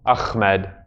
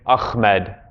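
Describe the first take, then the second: No difference in how they are said.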